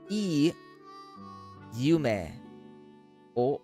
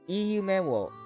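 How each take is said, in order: First: The phrase is said very slowly. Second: The phrase is said at a normal pace.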